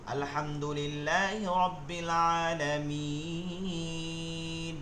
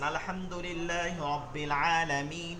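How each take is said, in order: First: The vowel is stretched long before stopping. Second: The vowel is held briefly, flowing on. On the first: The reading stops at the end of the verse. "থাম্মে পড়তেছেন ... এক আলিফ টানকে এখন তিন করছেন" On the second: The reading continues into the next verse. "যখন মিলাই পড়তেছেন ... এক আলিফটা টানছেন"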